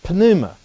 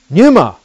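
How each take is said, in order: First: The word starts with a p before the n. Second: The word starts with an n sound, no p. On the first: "the Greeks don't have any problems pronouncing the p" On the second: "But it doesn't start with a n. It starts with a p"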